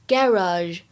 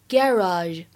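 First: It is said with a British pronunciation. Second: It is said with a British pronunciation.

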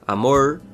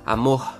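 First: The r sounds like an English r. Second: The r sounds like a soft h, Rio-style.

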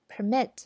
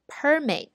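First: The stress is on the second syllable. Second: The stress is on the first syllable. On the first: It is used as a verb. "动词就读permit" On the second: It is used as a noun. "那么这个是名词的读法"

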